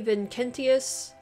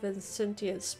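First: The c is pronounced as a hard k. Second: The c is pronounced as a soft s. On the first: "I'm assuming that's how you say that ... the C's have a hard K sound in Latin" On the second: "instead of Vincentius"

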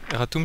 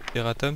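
First: The word is pronounced the Latin way. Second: The word is pronounced the French way. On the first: "Erratum c'est en latin" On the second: "erratum c'est en français"

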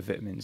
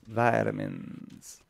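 First: It is said with a British pronunciation. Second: It is said with an American pronunciation.

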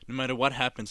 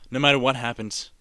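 First: The words are slurred together. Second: The words are clearly articulated.

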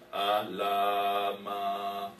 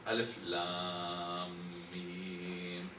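First: It is read as one short joined word. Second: It is read as three separate letter names. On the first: The speaker calls it wrong. "I might pronounce it as Alama" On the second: The speaker calls it right. "And we all pronounce it this way"

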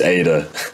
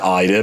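First: The name begins with an 'ay' sound. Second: The name begins with an 'eye' sound. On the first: This is the name's actual form. The speaker calls it right. "But it's Ada" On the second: This is how the name sounds in the local accent. The speaker calls it wrong. "that's what it sounds like in the Birmingham accent"

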